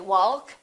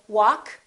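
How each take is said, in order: First: The L sound is pronounced. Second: The L sound is silent. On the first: The speaker calls it wrong. "We don't say walk" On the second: The speaker calls it right. "Silent L"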